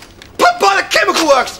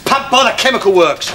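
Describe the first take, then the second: First: Higher-pitched, exasperated repeat. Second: Said in the usual way. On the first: Acted. Landlord hunting for the pub's name, exasperated. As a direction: let the frustration peak on this try. Third try, frustration peaks.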